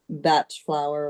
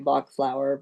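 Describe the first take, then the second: First: The name is said the non-American way. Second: The name is said the American way.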